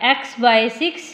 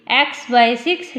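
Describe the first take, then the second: No difference in how they are said.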